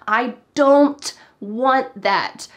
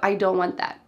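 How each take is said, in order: First: The T at the end of don't is pronounced. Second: The T at the end of don't is dropped. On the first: "if we always included that T" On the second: "When the T is cut off"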